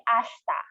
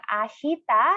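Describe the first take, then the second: First: "ashta" with the i dropped, sh running into ta; "ashta" with no vowel between sh and t; silent I. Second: "ashita" with the i sounded in the middle; "ashita" with an audible i after sh; full middle vowel. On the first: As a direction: say "ashta" in two syllables, ash-ta. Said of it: "Silent E or silent I". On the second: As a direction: say "ashita" in three full syllables, a-shi-ta. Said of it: "you should say ashta". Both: Shown as a demonstration.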